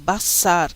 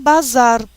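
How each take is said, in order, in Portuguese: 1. A consoante do meio é um s surdo. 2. A consoante do meio é um z sonoro. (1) "É Bassar. S sempre é S" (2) "Não falem bazar, por favor"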